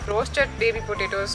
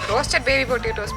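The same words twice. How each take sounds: First: It is said in a plain, unsmiling tone. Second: It is said with a smiling, laughing tone. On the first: The speaker calls it wrong. "இல்லை" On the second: The speaker calls it right. "கொஞ்சம் ஸ்மைலாக சொல்லு, சிரிப்போட சொல்லு"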